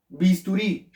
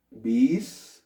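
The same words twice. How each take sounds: First: Said in the usual way. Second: "Bisturí" split into bis, tu, rí with long pauses; syllable by syllable. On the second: Shown as a demonstration. Teacher breaking "Bisturí" into syllables for the class, syllable by syllable. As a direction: spell out "Bisturí" slowly, one syllable at a time.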